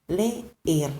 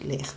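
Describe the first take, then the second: First: Leer with both e's sounded, le-er; Spanish leer. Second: Leer clipped to one short e, like Portuguese ler. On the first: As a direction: stretch Leer into two e's, le-er. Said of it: "se escribe con dos Es". (Leer em espanhol, com os dois e pronunciados) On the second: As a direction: say leer quick as ler, a single e. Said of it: "No es como en portugués". (leer dito curto como o ler português) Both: Shown as a demonstration.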